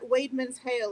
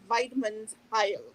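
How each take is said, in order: First: The last syllable rhymes with 'mail'. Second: The last syllable rhymes with 'mile'. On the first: The speaker calls it wrong. "It's not Weidman's Hail" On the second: The speaker calls it right. "it's Weidman's Heil"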